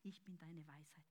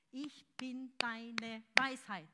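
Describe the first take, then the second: First: "Ich bin deine Weisheit" whispered softly; whispered God's word. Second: "Ich bin deine Weisheit" slow and loud; slow, loud proclamation; proclaimed aloud. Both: Acted. Whisper then repeated aloud.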